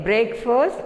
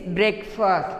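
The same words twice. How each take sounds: First: "breakfast" with "break" as in brake; "breakfast" with a long a in the first syllable; wrong pronunciation. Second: "breakfast" starting "brek"; "breakfast" with a short e in the first syllable; correct pronunciation. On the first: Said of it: "We should not say". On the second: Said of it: "It is breakfast". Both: Shown as a demonstration.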